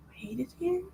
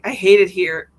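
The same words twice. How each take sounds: First: Soft, higher, rising wounded question; mock hurt question. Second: Loud, blunt mock grumble; imitated frustrated complaint. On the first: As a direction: act out being quietly hurt. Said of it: "My feelings were hurt". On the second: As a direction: retell an exasperated outburst. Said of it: "was actually having some difficulties".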